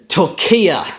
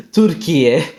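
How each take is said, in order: First: Turkiya slowed, as "tor-KEE-uh"; anglicised pronunciation. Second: Türkiye as "tür-ki-ye", ending in pure "e"; Turkish pronunciation. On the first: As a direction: stretch the stressed KEE in Turkiya, end on "uh". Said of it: "into Turkiya". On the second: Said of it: "that's how he turned Türkiye". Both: Shown as a demonstration.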